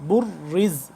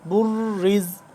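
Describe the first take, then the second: First: The word ends on a consonant, vowel dropped. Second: The same.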